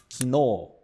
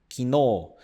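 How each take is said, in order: Both takes have the same delivery.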